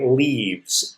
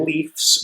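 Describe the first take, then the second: First: It ends with a v sound then s. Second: It ends with an f sound then s. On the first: The speaker calls it right. "we say leaves, L E A V E S" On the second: The speaker calls it wrong. "We don't say"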